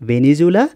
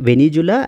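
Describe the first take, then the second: No difference in how they are said.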